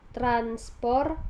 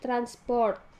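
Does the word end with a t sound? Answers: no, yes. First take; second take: no; yes. First: The word ends in an r sound. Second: A t sound is added at the end. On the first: The speaker calls it right. "kata transport" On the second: The speaker calls it wrong. "penambahan fonem T"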